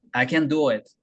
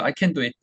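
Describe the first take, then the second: First: "I can do it" with "can" placed far back; English pronunciation. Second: English in a full Korean accent; Korean-accented, evenly syllabled English. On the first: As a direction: say "I can do it" in flowing English, falling at the end. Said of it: "저 깊숙한 들어간 소리입니다". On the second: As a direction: say it like Korean loanwords. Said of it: "완전 이제 코리안 악센트로 발음했죠". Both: Shown as a demonstration.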